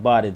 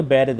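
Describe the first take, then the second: First: बारिद with a long open "aa", baa-rid; बारिद with a long "aa" in the first syllable, the correct form; correct pronunciation. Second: बैरिद with the first vowel as "ai", the wrong way; बैरिद with "ai" in the first syllable, the wrong form; wrong pronunciation. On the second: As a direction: say बैरिद as bai-rid to show the mistake. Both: Shown as a demonstration. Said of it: "बैरिद नहीं".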